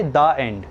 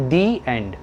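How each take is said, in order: First: The said "thuh" before end; short thuh, the wrong way. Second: The said "thee" before end; long ee the, "thee end". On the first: Teacher mocks the wrong movie ending. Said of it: "ऐसे नहीं बोलते". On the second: Teacher gives the right movie ending. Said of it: "क्या बोलते हैं". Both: Shown as a demonstration.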